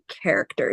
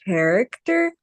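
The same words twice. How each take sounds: First: The word begins with a k sound. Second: The word begins with a ch sound. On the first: The speaker calls it right. "it's just going to make the normal C sound" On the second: The speaker calls it wrong. "C H can sometimes sound like ch like a ch sound"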